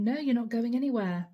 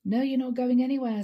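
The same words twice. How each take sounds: First: Said in the usual way. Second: Louder and faster, insistent refusal; firmer angry retort. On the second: Retold or imitated. Leo refusing to let his partner leave, louder angry insistence. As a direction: snap it back, louder and quicker. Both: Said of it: "says Leo".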